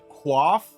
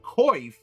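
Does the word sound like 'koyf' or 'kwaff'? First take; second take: kwaff; koyf. First: It starts with 'kw' and an 'ah' vowel. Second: It starts with 'k' and an 'oy' vowel. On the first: "like K W A F F" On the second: "like K O I F F"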